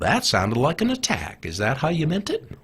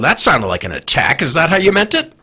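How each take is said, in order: First: It is said in a calm, gentle tone. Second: It is said in a sharp, hostile tone. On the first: The speaker is asking sincerely, not picking a fight. The speaker calls it right. "he'll very calmly say" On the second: The speaker is starting a fight. The speaker calls it wrong. "You can't say"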